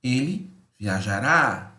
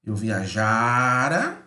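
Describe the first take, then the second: First: "viajará" with the final "rá" stressed; stress on the ending. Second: Drawn out "viajara", leaning on "ja"; stress on viajara. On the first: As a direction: finish "viajará" on a strong "rá". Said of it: "O rá é mais forte". ("viajará" com o "rá" forte) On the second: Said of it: "né". ("viajara" lento, tônica no "ja") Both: Shown as a demonstration.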